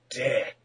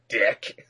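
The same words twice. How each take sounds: First: It sounds like someone saying a name. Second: It sounds like someone hurling an insult.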